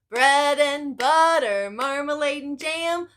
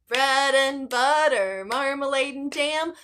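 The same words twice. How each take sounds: Both takes have the same delivery.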